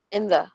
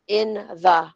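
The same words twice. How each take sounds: First: "in the" run together, short and light; quick and soft. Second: "in the" as two separate, fuller words; careful unreduced take. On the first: Teacher showing unstressed words, quick light "in the". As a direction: squeeze "in the" into one quick unit. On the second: Teacher contrasting forms for students, "in the" said fully. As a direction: give "in" and "the" each their full length. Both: Shown as a demonstration. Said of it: "mabilis lang siya at soft lang siya".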